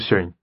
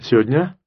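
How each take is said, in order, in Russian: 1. Слово сжато до очень небольшого количества звуков. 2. Некоторые звуки в середине пропущены. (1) "а может быть, даже" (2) "В лучшем случае говорите"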